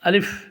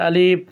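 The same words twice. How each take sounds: First: The vowel is kept short, without drawing it out. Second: The vowel is drawn out and lengthened. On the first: The speaker calls it right. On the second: The speaker calls it wrong.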